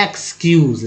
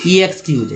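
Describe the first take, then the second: First: एक्सक्यूज said as "ex-kyooz", no "ee" sound at the start; correct pronunciation. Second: ईएक्सक्यूज said with a spelled-out "ee-ex" at the start; mock the wrong ईएक्सक्यूज reading; wrong pronunciation. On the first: Teacher showing students the right way to say it. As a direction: model एक्सक्यूज starting straight on the ex. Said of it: "तो कैसे पढ़ते हैं?". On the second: Teacher showing students the mistake to avoid. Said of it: "इस तरह थोड़ी बोलते हैं". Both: Shown as a demonstration.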